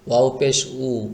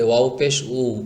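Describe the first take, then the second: Both takes have the same delivery.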